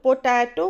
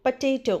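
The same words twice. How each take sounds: First: "पोटैटो" as po-TAA-to, full o and open a; wrong pronunciation. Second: "पोटैटो" as puh-TAY-toh; correct pronunciation. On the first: Teacher quoting how many people say it, wrong "पोटैटो" as po-TAA-to. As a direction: say "पोटैटो" as poh-TAH-toh, the common mistaken way. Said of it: "पर नहीं, correct pronunciation". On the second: Teacher correcting learners on potato, correct "पोटैटो" as puh-TAY-toh. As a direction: say "पोटैटो" with a weak first syllable and "tay" in the middle. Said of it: "correct pronunciation है". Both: Shown as a demonstration.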